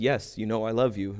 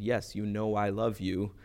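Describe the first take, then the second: First: Said in the usual way. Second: Slower, softer repeated answer; hurt repetition. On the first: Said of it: "in case it wasn't clear". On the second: Retold or imitated. Peter answering Jesus once more, slow and subdued. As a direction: spell it out slowly and quietly. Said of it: "you asked again".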